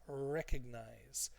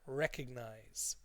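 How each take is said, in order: First: The stress falls on the first syllable. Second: The stress falls on the first syllable.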